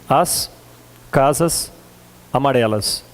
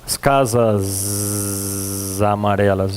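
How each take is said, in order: First: The final s of casas sounds like s. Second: The final s of casas sounds like z.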